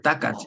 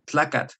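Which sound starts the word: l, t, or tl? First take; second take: t; tl. First: The word begins with a t sound. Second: The word begins with a tl sound. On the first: "it's also acceptable just to say T" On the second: "when people can't say the TL"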